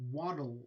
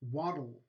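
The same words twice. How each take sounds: No difference in how they are said.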